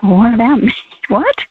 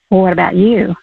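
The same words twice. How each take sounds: First: Surprised self-questioning with a laugh; startled. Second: Gentle, tender inner voice asking quietly; sweet soft question. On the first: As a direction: caught off guard, rising into a laughing what. Startled reply to God's question. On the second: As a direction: ask it softly, like a loving nudge. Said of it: "such a sweet, soft question". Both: Retold or imitated.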